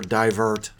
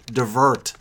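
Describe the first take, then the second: First: "divert" with a long first vowel, dye-VURT; first syllable of "divert" like "die". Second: "divert" with a short first vowel, dih-VURT; first syllable of "divert" like "dih". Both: Shown as a demonstration. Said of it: "however you pronounce it".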